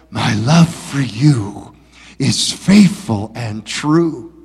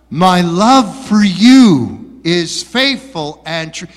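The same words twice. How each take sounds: First: It is said softly, close and intimate. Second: It is said loudly, almost shouted.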